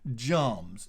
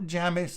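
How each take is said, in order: First: The name is said as one syllable. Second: The name is said as two syllables. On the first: The speaker calls it right. "it's pronounced Jarms" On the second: The speaker calls it wrong. "not not Jamis"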